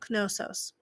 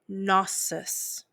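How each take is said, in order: First: A K sound is heard before the N. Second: No K sound is heard before the N. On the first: "You'll actually hear them say the K and the N" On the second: "Often you'll hear them say Gnosis"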